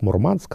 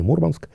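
First: The stress falls where sailors place it. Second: The stress falls where landspeople place it. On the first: This is professional jargon. "Моряки так произносят" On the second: This is everyday usage. "Это для сухопутных"

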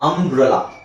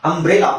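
First: The middle vowel is a weak 'uh' sound. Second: The middle vowel is a clear 'e' sound. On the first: The speaker calls it right. "ಅಂಬ್ರಲಾ ಅ ಅ ಆ" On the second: The speaker calls it wrong. "ಅಂಬ್ರೆಲಾ ಅಲ್ಲ"

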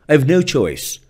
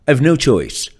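The two takes are said the same way.

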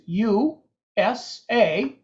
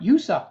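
First: Each letter is said separately. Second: It is said as one single word. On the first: The speaker calls it right. "we say the letters USA" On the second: The speaker calls it wrong. "not USA"

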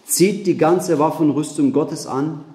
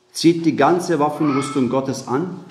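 Both takes have the same delivery.

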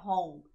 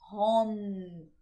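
First: The word does not end on a closed M. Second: The word ends on a closed M sound. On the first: The speaker calls it wrong. "a gente não vai falar home" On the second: The speaker calls it right. "Termina com som de M"

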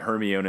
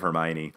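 First: The name is pronounced the way it is spelled. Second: The name is pronounced in its usual form. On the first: The speaker calls it wrong. "he was saying Hermione" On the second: The speaker calls it right. "instead of Hermione"

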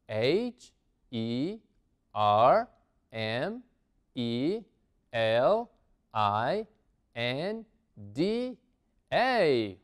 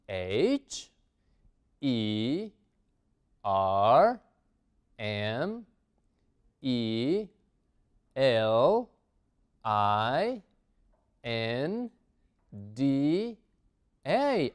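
First: The letters are spelled at a faster pace. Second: The letters are spelled at a slower pace.

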